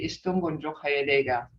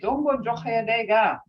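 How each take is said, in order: First: It is said in a softer, concerned tone. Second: It is said in an ordinary, casual greeting tone. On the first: It shows concern for someone going through hardship. "in a more softer tone" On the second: It is an everyday greeting on meeting someone. "when you're being just meeting up with somebody, you say"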